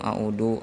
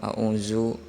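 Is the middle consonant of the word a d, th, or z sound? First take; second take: d; z. First: The middle consonant is a plain d sound. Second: The middle consonant is a plain z sound. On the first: "Ada yang a'udu, ... itu adalah ... salah" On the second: "ada yang a'uzu ... salah"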